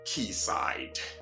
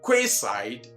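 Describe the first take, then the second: First: It begins like the word key. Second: It begins with a kw sound, as spelled. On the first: The speaker calls it right. "but what? Quayside" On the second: The speaker calls it wrong. "this one is never quayside"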